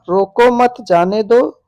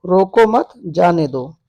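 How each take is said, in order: First: "रोको मत जाने दो" run on as one phrase, slowly; first phrasing. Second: "रोको मत", a clear break, then "जाने दो"; pause after मत. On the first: Teacher reading an example of same words, different grouping, "रोको मत जाने दो" in one run. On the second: Teacher showing the changed grouping, "रोको मत" set apart from "जाने दो". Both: Shown as a demonstration. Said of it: "अर्थ तो एक होता है पर अन्वय".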